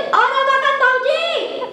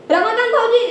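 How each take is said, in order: First: High, slow, drawn-out holler; insistent calling. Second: Higher-pitched woman's call. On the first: Woman calling deaf brother-in-law, long singsong holler. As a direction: stretch the name to reach someone not listening. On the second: Woman calling her brother-in-law, brisk high call. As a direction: summon him briskly, first attempt. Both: Acted.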